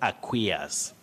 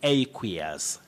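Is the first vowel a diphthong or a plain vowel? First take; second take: plain; diphthong. First: The first vowel is a plain single vowel. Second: The first vowel is a gliding diphthong. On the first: The speaker calls it wrong. "not aqueous" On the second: The speaker calls it right. "You say aqueous"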